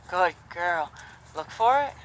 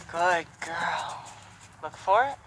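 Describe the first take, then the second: No difference in how they are said.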